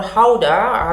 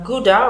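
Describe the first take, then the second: First: Gouda said the Dutch way, HOW-da; Dutch pronunciation. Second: Said in the usual way. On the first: Shown as a demonstration. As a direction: open Gouda with a breathy Dutch H sound, not a hard G. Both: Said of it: "as the Dutch friends pronounce it".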